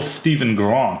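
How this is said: It is said in an imitated British-style accent.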